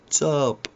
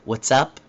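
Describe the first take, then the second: First: The phrase is said reduced, sounds run together. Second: The phrase is said fully, both words clear.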